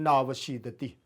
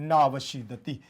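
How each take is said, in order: The two takes are said the same way.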